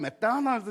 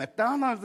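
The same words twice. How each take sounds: First: It is said with a light, soft accent. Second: The same.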